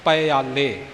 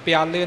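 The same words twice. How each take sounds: First: ਪਿਆਲੇ as a separated "pa-yaa-le"; corrected three-syllable reading. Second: ਪਿਆਲੇ fused into "pyaa-le"; common misreading. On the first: Teacher correcting the common mistake, ਪਿਆਲੇ as "pa-yaa-le". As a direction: say ਪਿਆਲੇ with its own short first syllable. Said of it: "ਪਿਆਲੇ ਨਹੀਂ ਪੜ੍ਹਨਾ". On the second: Teacher warning of a common mistake, ਪਿਆਲੇ said "pyaa-le". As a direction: say ਪਿਆਲੇ in two syllables, starting "pyaa". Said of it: "ਆਮ ਇਹ ਗਲਤੀ ਸੁਣੀ ਜਾਂਦੀ ਹੈ". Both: Shown as a demonstration.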